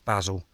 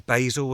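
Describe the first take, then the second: First: It is pronounced the British way. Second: It is pronounced the American way. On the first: The speaker calls it right. "No, it's basil" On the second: The speaker calls it wrong. "because you say basil as well?"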